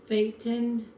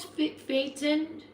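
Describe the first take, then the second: First: Said in the usual way. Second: "Pha-, Phaeton?" restarted, slow and higher, each syllable tried out; careful second try. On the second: Shown as a demonstration. Host checks a caller's name, slow and unsure. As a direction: sound out "Phaeton?" slowly on a high, unsure pitch. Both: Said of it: "how do you pronounce it".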